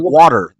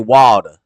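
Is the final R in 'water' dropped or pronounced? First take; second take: pronounced; dropped. First: The final R sound is clearly pronounced. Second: The final R sound is dropped. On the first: This is not how Southerners say it. The speaker calls it wrong. "Southerners don't say water" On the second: This is how Southerners say it. The speaker calls it right. "they say water"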